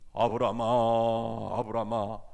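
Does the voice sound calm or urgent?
calm. It is said in a calm, measured voice. The speaker calls it wrong. "이건 잘못 읽은 거예요"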